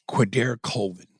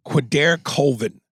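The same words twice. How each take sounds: First: Said in the usual way. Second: "Quadair Colvin" said higher and slower, each part stretched; slow showy announcement. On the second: Shown as a demonstration. Reading a listener's porn name, slow showy announcement.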